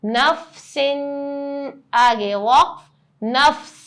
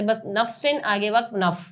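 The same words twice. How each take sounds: First: نفس ended with a clear, held س; correct reading. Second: نفس ended as نف, the س swallowed; wrong reading. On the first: Teacher showing the right way with the س pronounced. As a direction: sound the final س fully in نفس at the stop. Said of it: "میں نے سین بھی ادا کرا". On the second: Teacher demonstrating the common mistake of swallowing the س. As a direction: drop the final س so نفس comes out نف. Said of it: "سین کی آواز ہی نہیں نکالتے". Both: Shown as a demonstration.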